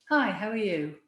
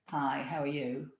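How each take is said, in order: First: The greeting sounds bright and cheerful. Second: The greeting sounds flat and gloomy.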